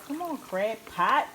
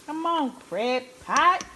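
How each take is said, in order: First: Slow, coaxing call to the crab pot. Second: Higher, louder, slow plea to the pot; eager urging. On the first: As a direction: gently hurry the pot along. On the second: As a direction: beg the crab pot to hurry up. Urging the crab pot on again. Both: Real, not acted.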